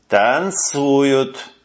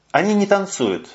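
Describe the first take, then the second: First: Stubborn. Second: Не stressed with a falling tune; лёгкий упор на «не». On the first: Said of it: "упрямо сказал лейтенант". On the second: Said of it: "stress on не". (не выделено голосом) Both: A narrator's reading.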